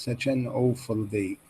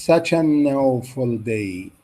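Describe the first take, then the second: First: Said in the usual way. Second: "such an awful day" said slowly; slow teacher demo; slow model reading. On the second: Shown as a demonstration. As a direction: stretch the phrase out for learners. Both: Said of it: "copy the stress and intonation".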